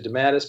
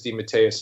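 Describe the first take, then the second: First: The name is said in a shortened, squashed form. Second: The name is said in its full Italian form. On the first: This is the form it took in the United States. "It got squashed into Dematis" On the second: This is the original family pronunciation. "the authentic Italian pronunciation is Demeteus"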